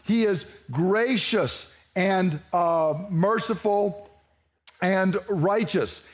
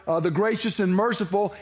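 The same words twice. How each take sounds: First: Slow scripture reading. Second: Said in the usual way. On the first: Shown as a demonstration. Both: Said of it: "And that phrase there".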